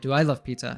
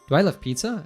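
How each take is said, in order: First: The pitch falls at the end. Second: The pitch rises at the end. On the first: It is an emphatic statement. "I'm saying" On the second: It is a real question. "I'm not saying, ... as a question"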